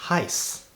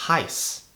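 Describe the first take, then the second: The two takes are said the same way.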